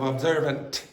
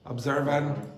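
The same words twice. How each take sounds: First: The word is said with its T sound. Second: The word is said without its T sound. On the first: The speaker calls it right. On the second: The speaker calls it wrong.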